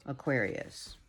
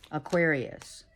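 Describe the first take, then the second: First: Much softer, hushed repeat; soft echo. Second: Said in the usual way. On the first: Shown as a demonstration. Reader echoes the sign name, softly hushed. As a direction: let it fade like a distant echo. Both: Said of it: "sign name repeated, echoed".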